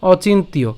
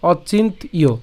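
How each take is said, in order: First: "অচিন্তীয়" run together as one word, ochintiyo; connected "অচিন্তীয়" without a break before the final iyo; joined pronunciation. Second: "অচিন্ত ইয়" with a break before ইয়; teacher splitting "অচিন্ত ইয়" into parts; broken-down pronunciation. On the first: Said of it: "একসাথে উচ্চারণ করতে গেলে". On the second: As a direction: say অচিন্ত, pause, then ইয়. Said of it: "ভাঙছি, ঠিক আছে". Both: Shown as a demonstration.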